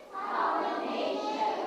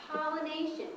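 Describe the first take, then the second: First: Pollination spelled out slowly, each syllable clear and rising; slow model word. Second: Said in the usual way. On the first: Shown as a demonstration. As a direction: sound out Pollination slowly for kids to repeat. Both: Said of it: "Can you say pollination?".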